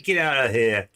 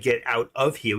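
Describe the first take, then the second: First: It is said with a New York accent. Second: It is said without a New York accent. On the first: "We say get out of here" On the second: "In New York, we don't say get out of here"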